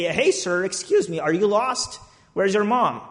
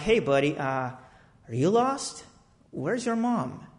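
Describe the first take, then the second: First: Said in the usual way. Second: Put-on gentle to a child. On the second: Talking gently to lost kid.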